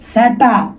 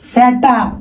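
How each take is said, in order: The two takes are said the same way.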